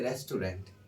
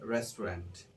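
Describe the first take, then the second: First: The word is said in a Bangladeshi style. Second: The word is said in a native-speaker style. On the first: The speaker calls it wrong. "We usually say restaurant in Bangladesh, but this is not correct pronunciation" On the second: The speaker calls it right. "so you should say restaurant"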